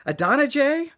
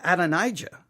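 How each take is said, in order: First: Adonijah as uh-DON-uh-jay, rising like a question; trying out pronunciation. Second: Adonijah as ad-uh-NIGH-juh; own pronunciation. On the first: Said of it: "Which one is it?". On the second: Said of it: "questioning my own pronunciation". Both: Shown as a demonstration.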